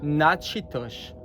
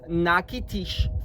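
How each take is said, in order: First: The second syllable starts with a 'ch' sound. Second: The second syllable starts with a 'k' sound. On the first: It names the nation. "Nachitosh for the nation" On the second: It names the city. "the pronunciation is Nakitish for the city"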